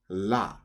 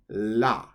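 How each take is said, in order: First: The syllable starts with an L-like sound. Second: The same.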